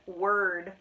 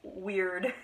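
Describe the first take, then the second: First: It sounds like the English word 'word'. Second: It sounds like the English word 'weird'. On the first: The speaker calls it right. "apparently it's pronounced word" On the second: The speaker calls it wrong. "I most definitely was pronouncing it weird"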